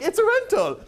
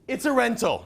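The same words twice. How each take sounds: First: It is said in a funny European accent. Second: It is said in his normal voice.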